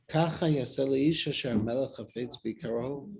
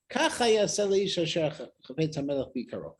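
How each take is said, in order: First: It is said as a personal lament. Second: It is called out as a public proclamation.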